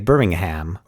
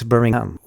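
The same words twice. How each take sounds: First: The H sound in the middle is pronounced. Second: The H sound in the middle is dropped. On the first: This is how Americans say it. "here we would say" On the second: This is how locals in England say it. "they don't pronounce the H"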